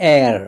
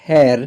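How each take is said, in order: First: The word begins with a vowel sound. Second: The word begins with a consonant sound. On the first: The speaker calls it right. "it is air ... as these are vowel sounds" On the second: The speaker calls it wrong. "this is not hair"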